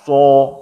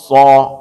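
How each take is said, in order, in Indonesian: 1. Vokal "so" diucapkan dengan bibir dimonyongkan dan membulat. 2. Vokalnya terbuka, tanpa bibir dibulatkan. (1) "bukan so. Nah, tidak seperti itu" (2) "letak tebal tipis huruf bukan pada mulut tapi pada lidah"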